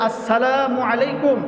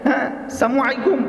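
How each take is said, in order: First: Every syllable is pronounced fully and clearly. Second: The opening syllables are slurred and clipped. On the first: The speaker calls it right. "সালামের শুদ্ধ উচ্চারণ" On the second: The speaker calls it wrong. "অনেক রকমের স্টাইলে মানুষ সালাম দেয়"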